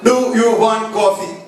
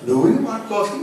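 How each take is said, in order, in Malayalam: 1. ചോദ്യഭാവമുള്ള ഈണമില്ലാതെയാണ് ഇത് പറയുന്നത്. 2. ചോദ്യഭാവമുള്ള ഈണത്തോടെയാണ് ഇത് പറയുന്നത്. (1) "എന്നാരും ചോദിക്കാറില്ലല്ലോ" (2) "അത് ചോദ്യത്തിന്റെ അർത്ഥം"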